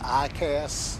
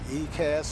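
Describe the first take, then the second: First: The first letter is said with an 'eye' sound. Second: The first letter is said with an 'ee' sound. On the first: The speaker calls it right. "it's actually pronounced I C A S" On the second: The speaker calls it wrong. "I call it E C A S because I tend to want to pronounce it the way it's look like it's spelled"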